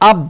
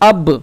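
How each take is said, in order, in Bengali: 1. শেষের b চেপে বন্ধ রাখা হয়, ছাড়া হয় না। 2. শেষের b প্রতিধ্বনি দিয়ে ঝাঁকি মেরে বেরিয়ে আসে। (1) "এইভাবে চিপে ধরা যাবে না" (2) "একটু ধাক্কা লেগে ওটা উপরে উঠে আসবে"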